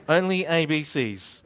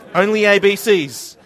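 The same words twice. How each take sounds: First: Said in the usual way. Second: Louder, punchy announcement; proclaimed loudly as a joke; loud declaration. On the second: Acted. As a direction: call it out to the room. Joking exclusive group hug.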